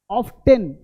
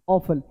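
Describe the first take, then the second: First: "ऑफ्टन" as OFF-TEN, t sounded; wrong pronunciation. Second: "ऑफन" as OFF-un, t silent; correct pronunciation. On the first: Teacher says not to say this, wrong pronunciation. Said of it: "नहीं बोलना". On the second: Teacher gives students the replacement, correct pronunciation. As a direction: let "ऑफन" fall without a t. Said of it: "नहीं बोलना, ऑफन". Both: Shown as a demonstration.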